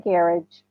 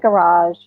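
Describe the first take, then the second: First: It is said with a New Zealand accent. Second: It is said with an American accent. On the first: "Here, it's a garage" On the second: "in America, it's a garage"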